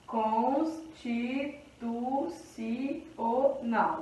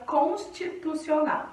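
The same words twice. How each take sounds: First: Very slow, soft "Constitucional", a gap after each syllable. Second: Said in the usual way. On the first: Shown as a demonstration. Teacher separating the word for counting, slow syllable by syllable. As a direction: spell out "Constitucional" in separate, evenly spaced syllables.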